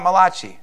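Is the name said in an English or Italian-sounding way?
Italian. The name is said with an Italian flavor. The speaker calls it wrong.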